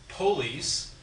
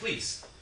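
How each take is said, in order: First: A short weak vowel comes after the p. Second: No vowel comes between the p and l. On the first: "unstressed vowels get reduced to schwas" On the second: "who needs the vowel at all? You just say please"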